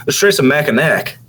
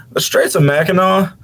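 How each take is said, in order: First: Mackinac said as MACK-in-ack, hard k at the end. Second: Mackinac said as MACK-in-aw, silent final c; Mackinac ending in AW. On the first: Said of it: "they're two different things". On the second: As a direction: end Mackinac on an open aw sound. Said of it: "no, there's no G in this one". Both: Shown as a demonstration.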